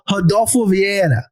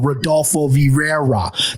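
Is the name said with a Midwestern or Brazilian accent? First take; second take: Brazilian; Midwestern. First: The name is said with a Brazilian Portuguese accent. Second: The name is said with a Midwestern American accent. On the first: The speaker calls it right. "I've been through this training. So I'm going to go" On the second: The speaker calls it wrong. "my Midwest ass would go"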